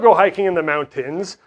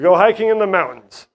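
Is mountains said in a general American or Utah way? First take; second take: general American; Utah. First: Mountains is said in a general American way. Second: Mountains is said in a local Utah way. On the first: This is how other people say it. "We don't go hiking in the mountains" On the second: This is how people in Utah say it. "we don't have to pronounce words the same as other people"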